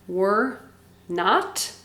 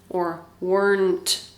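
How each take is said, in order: First: It is said as two separate full words. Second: It is said quickly as one contracted word. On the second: "we say it very fast"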